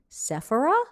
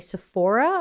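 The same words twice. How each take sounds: First: It is said the non-American way. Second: It is said the American way. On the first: "outside of America it seems to be Sephora" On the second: "in America we say Sephora"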